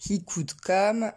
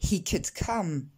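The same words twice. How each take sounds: First: Slow "he could come" with unaspirated k sounds; French-accented "he could come"; prononciation française. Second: Slow "he could come" with puffed k sounds; k aspirés. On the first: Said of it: "on ne va pas dire". (« he could come » à la française, sans souffle) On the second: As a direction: release air on both c's in English "he could come". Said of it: "mais on va dire". (« he could come » lent, avec k soufflés) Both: Shown as a demonstration.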